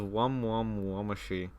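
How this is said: It is said with Japanese-style pronunciation. "they pronounce it as"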